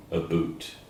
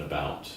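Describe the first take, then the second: First: "a boot" said with an oo vowel, imitating Canadians; mock-Canadian "a boot", long oo in the second word; Canadian pronunciation. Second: Said in the usual way. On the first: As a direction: say "a boot" to rhyme with suit. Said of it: "Canadians say a boot rather than about". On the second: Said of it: "rather than about".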